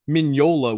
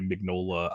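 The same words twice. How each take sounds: First: The name is pronounced the Italian way. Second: The name is pronounced the American way. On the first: "Mignola would be the Italian way" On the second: "most people Americanize it and say Mignola"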